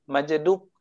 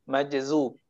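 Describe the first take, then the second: First: The middle consonant is a d sound. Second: The middle consonant is a z sound. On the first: This is a regional dialect pronunciation. The speaker calls it wrong. "tapi orang Jawa salah sebut karena lafaznya... Majdub kata orang Jawa" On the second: This is the standard pronunciation. The speaker calls it right. "Yang sahih, majzub"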